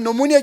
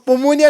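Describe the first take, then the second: First: The word starts with an n sound. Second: The word starts with a p sound. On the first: The speaker calls it right. "हम नोमोनिया कहते हैं" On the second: The speaker calls it wrong. "हम पोमोनिया नहीं कहते"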